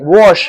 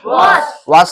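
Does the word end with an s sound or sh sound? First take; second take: sh; s. First: The word ends with an sh sound. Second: The word ends with a plain s sound. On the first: The speaker calls it right. "आ गया ना" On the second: The speaker calls it wrong. "वॉश नहीं"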